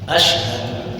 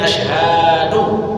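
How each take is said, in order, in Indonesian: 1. Vokal setelah h pendek. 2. Vokal setelah h dibaca panjang. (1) "Jadi yang benar adalah asyhadu" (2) "memanjangkan huruf H yang terdapat pada kata asyhadu"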